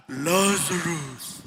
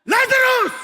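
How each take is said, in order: First: Very low, very slow booming call; mighty archangel voice. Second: Calling Lazarus out loud and high; shout. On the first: Preacher imagining the archangel's call in heaven, deep slow boom. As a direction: let the name roll out like a heavenly voice. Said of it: "imagine yung lakas na yun, archangel". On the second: Preacher acting Jesus calling Lazarus from the tomb, loud commanding shout. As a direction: call the dead man out of the tomb. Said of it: "Sumigaw eh". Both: Retold or imitated.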